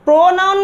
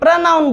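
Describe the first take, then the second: First: The first vowel is a full 'o' sound. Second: The first vowel is reduced and short. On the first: The speaker calls it wrong. "प्रोनाउन नहीं बोलेंगे" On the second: The speaker calls it right. "प्रनाउन बोलेंगे"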